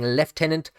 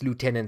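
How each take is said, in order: First: It is said the British way, like 'leftenant'. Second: It is said the American way, like 'lootenant'.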